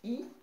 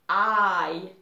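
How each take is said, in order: First: The letter is said with French pronunciation. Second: The letter is said with English pronunciation. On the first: "en français" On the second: "in English"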